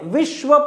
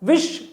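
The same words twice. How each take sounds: First: The final 'v' sound is fully pronounced. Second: The final 'v' sound is left out. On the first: The speaker calls it right. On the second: The speaker calls it wrong.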